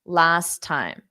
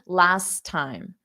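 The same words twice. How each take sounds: First: The two T sounds merge into one. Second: The two T sounds merge into one.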